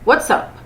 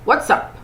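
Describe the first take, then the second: First: It is said short and tight. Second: The same.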